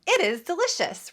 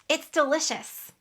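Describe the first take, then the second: First: Both words are reduced but still separate. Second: The two words merge into one short syllable. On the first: The speaker calls it wrong. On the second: The speaker calls it right. "I make a contraction when I speak"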